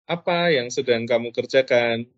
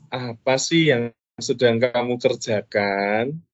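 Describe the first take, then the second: First: The question sounds warm and casual. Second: The question sounds timid and apologetic. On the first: The asker is a friend. "kalau sebagai seorang teman" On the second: The asker feels at fault. "kalau menjadi orang yang merasa bersalah"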